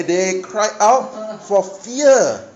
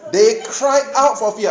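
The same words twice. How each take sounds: First: Drawn out word by word; very slow. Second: Said in the usual way. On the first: Shown as a demonstration. Preacher slowly rereading the verse to the congregation. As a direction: read it slowly, stressing fear. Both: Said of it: "I didn't add any salt".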